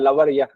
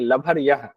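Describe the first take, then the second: First: The middle consonant is a soft 'v' sound. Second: The middle consonant is a breathy 'bh' sound. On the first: This is the pure, correct pronunciation. The speaker calls it right. "शुद्ध उच्चारण तो लवर ही होता है" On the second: This is the everyday casual way people say it. The speaker calls it wrong. "लभर कहते हैं ना हम लोग ऐसे बोलने की"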